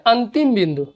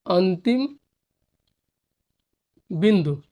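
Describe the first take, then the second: First: Said in the usual way. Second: अंतिम then बिंदु after a long pause; dictating the term for the class; slow dictation. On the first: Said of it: "first take". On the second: Shown as a demonstration. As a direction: dictate अंतिम बिंदु one word at a time. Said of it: "dictating word by word".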